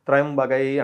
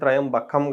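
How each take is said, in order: First: The word ends with a 'gai' sound. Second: The word ends with a 'kam' sound. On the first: The speaker calls it right. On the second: The speaker calls it wrong.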